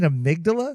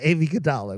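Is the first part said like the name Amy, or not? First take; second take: not; like Amy. First: It is said as the usual single word amygdala. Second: It starts like the name Amy, then Gadala. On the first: The speaker calls it right. "wait, you mean Amygdala?" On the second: The speaker calls it wrong. "Did he know that he was saying it wrong?"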